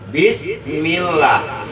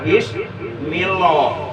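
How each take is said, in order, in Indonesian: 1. 'Lah' diucapkan dengan bunyi tipis dan ringan. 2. 'Lah' diucapkan dengan bunyi tebal dan berat. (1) "itu contoh lafzul jatar tarkik" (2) "enggak boleh dibaca bismillah"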